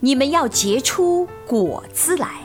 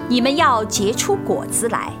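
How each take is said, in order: First: It is read with expressive, heartfelt emotion. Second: It is read at a normal, even speed. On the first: "加入对经文的理解后的情感来诵读" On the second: "用正常速度诵读一遍"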